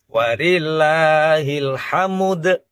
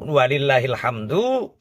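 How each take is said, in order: First: The vowel is moved before the final d. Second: The vowel is heard after the final d.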